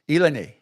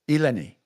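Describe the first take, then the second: First: The name is said as Dominicans pronounce it. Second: The name is said as Dominicans pronounce it.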